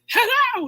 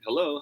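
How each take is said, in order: First: It is said very loudly, near shouting. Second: It is said at a natural speaking volume. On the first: The speaker calls it wrong. "you're not at the top of your voice, right? Hello! You don't say that" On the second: The speaker calls it right. "the statement that is closest to your natural volume"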